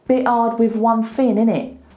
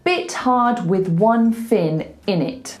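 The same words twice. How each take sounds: First: The word with ends in a v sound. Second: The word with ends in a th sound. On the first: "voiced T H's turn into a V" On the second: "But he doesn't say that"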